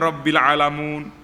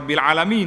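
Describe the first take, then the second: First: The last word ends with an 'oon' sound. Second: The last word ends with an 'een' sound. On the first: The speaker calls it wrong. "dia Rabbil Alamun" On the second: The speaker calls it right. "orang kata Rabbil Alamin"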